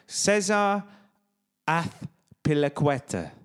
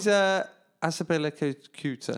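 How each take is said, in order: First: Slow Spanish Azpilicueta, ath-pili-KWET-a; Spanish accent. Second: Azpilicueta stumbled as as-a-pilly-KYOO-ta; botched pronunciation. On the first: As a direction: demonstrate it with a lisped Spanish th, slowly. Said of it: "so he's Spanish". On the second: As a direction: mangle Azpilicueta, ending in KYOO-ta. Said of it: "can't even say the incorrect way". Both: Shown as a demonstration.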